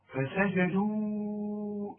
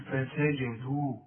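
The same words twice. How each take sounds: First: The final long vowel is held for four counts. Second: The final long vowel is held for two counts. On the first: The word runs on into the next word. "عند الوصف فسجدوا إلا" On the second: The reader stops on this word. "إذا وقفت تقول فسجدوا مد طبيعي حركتين"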